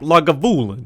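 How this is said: It is said in an Italian-mobster accent.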